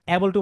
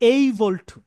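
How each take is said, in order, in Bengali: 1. প্রথম স্বরধ্বনিটি 'cat'-এর 'a'-এর মতো শোনায়। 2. প্রথম স্বরধ্বনিটি 'day'-এর 'ay'-এর মতো শোনায়। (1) "অ্যাবল টু হচ্ছে একটা ভুল উচ্চারণ" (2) "সঠিক উচ্চারণটা হবে এইবল টু"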